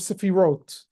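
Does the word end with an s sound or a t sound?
t sound. It ends with a t sound, non-Ashkenazic style. "there's an S or a T"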